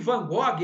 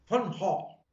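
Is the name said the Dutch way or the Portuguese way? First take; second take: Portuguese; Dutch. First: The name is said the Portuguese way. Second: The name is said the Dutch way. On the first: The speaker calls it wrong. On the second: The speaker calls it right.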